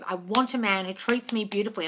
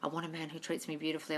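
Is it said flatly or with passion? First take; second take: with passion; flatly. First: It is said with strong passion and conviction. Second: It is said flatly, as rote repetition.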